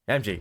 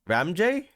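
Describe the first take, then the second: First: The name ends with a 'jee' sound. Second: The name ends with a 'jay' sound. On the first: The speaker calls it right. "it's Ramji" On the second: The speaker calls it wrong. "not Ramjay"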